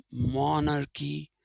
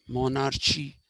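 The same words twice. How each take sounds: First: "monarchy" said as mon-ar-kee; k sound in monarchy. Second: "monarchy" said as mon-ar-chee; mispronounced monarchy. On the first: Teacher showing how we say it, "monarchy" with k. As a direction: say "monarchy" with a hard K. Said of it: "when we say monarchy". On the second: Teacher showing what we don't say, "monarchy" with ch. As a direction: say "monarchy" with CH as in church. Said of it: "We don't say archy". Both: Shown as a demonstration.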